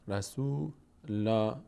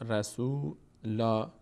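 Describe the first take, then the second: Both takes have the same delivery.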